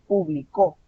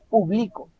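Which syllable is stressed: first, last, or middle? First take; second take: last; middle. First: The stress is on the last syllable. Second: The stress is on the middle syllable. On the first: He published, in the past. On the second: I publish, in the present.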